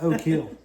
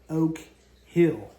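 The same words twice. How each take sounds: First: The two words run together like 'oh kill'. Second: The two words are kept clearly separate. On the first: This is how locals said it. The speaker calls it wrong. "not; it always just ran together" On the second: This is the town's real name. The speaker calls it right. "the town was called"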